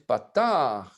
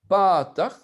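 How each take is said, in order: First: The vowel is drawn out long. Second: The vowel is kept short. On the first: The speaker calls it right. "une voyelle qui est plus longue, ... J'exagère" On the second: The speaker calls it wrong. "on ne va pas dire patach"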